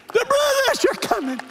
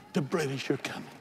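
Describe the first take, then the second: First: High, full-force alarm shout; Paul Revere. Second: Said in the usual way. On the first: Pretend. Preacher playing a rider through the city, shouting. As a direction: holler it like a rider warning the town. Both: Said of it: "I feel like Paul Revere".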